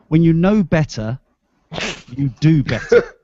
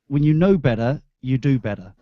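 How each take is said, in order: First: The t sounds in 'better' are clearly pronounced. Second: The t sounds in 'better' are dropped.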